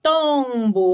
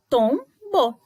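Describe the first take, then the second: First: "Tombo" com ON nasal esticado; som nasal. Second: "Tombo" em TOM, pausa, BO; separação de sílabas. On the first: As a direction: prolongue a primeira sílaba de "Tombo". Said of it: "On é o som nasal". ("Tombo" ligado, vogal nasal longa) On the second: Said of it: "duas sílabas". ("Tombo" silabado e mais agudo) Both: Shown as a demonstration.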